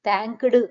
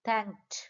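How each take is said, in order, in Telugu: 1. అదనపు అచ్చు చివరి హల్లులను విడదీస్తుంది. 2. చివరి హల్లులు ఒకే గట్టి గుంపుగా ఉంటాయి. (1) "థ్యాంక్డ్ అంటాం" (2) "థ్యాంక్డ్ కాదు థ్యాంక్డ్"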